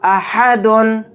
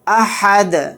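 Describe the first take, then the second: First: The word ends with a nasal 'dun' syllable. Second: The word ends on a bare, bounced 'd'. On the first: The reading continues without stopping. "दाल दो पेश दुन" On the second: The reader stops at the end of the verse. "दाल को साकिन बनाकर पढ़ेंगे और यहाँ पर क़लक़ला भी करेंगे"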